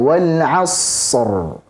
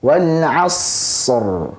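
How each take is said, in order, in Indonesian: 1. Bunyi s ditahan terlalu lama. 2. Bunyi s ditahan terlalu lama.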